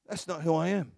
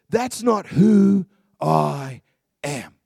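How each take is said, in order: First: Softer, matter-of-fact, no push; just say it quietly as fact; quiet simple statement. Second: Slow, louder and lower, every word planted; firm declaration. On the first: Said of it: "when you just go". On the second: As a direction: say it as a settled identity. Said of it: "what she's saying is". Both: Shown as a demonstration.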